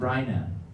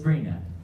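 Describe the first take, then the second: First: The first vowel sounds like 'eye'. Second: The first vowel sounds like 'ee'. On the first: The name is mispronounced. The speaker calls it wrong. "the guy kept calling her uh" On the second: The name is pronounced as its owner says it. The speaker calls it right. "she kept saying it's Brina"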